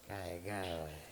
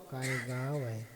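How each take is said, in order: First: It sounds contemptuous, mocking the village. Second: It sounds admiring, praising the village.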